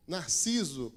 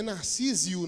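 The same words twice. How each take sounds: First: Narciso said nar-SEE-zo, falling; correct name. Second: Narcísio with an extra i, nar-SEE-zee-o; the mistaken Narcísio, rising; Narcísio misread form; wrong version. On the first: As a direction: settle on Narciso plainly. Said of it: "É Narciso mesmo?". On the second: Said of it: "Não é Narcísio, não, né?". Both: Shown as a demonstration.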